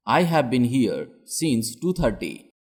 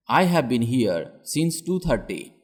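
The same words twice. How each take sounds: The two takes are said the same way.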